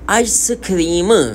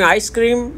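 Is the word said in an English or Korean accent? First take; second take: Korean; English. First: The word is said in a Korean accent. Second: The word is said quickly in an English accent. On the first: "Korean लहजे में बोलेंगे" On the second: "English में आइसक्रीम जल्दी बोलते हैं"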